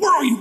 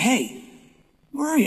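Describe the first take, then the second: First: It is yelled angrily. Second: It is said gently and kindly.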